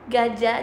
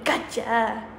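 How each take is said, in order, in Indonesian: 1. Diucapkan dengan logat yang biasa dan netral. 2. Diucapkan dengan logat Jawa yang medok.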